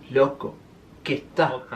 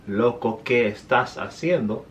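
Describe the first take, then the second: First: The S sounds are aspirated like an H. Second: The S sounds are fully pronounced. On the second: "I didn't say"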